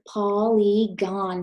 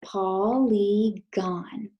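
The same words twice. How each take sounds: First: Polygon said slowly, syllable by syllable; slow model word Polygon; syllables spelled out. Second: Polygon drawn out very slowly with a rising end; slow choral Polygon; choral repeat. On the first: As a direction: stretch out Polygon slowly, each syllable clear. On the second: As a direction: lead the class through Polygon, very slowly. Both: Shown as a demonstration. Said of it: "say it with me".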